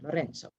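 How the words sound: It is said with an Italian accent. "or more Italian"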